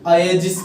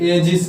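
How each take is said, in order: First: The word begins with an 'ay' vowel. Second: The word begins with an 'eh' vowel. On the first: "ये दोनों ही wrong है" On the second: "ये दोनों ही wrong है"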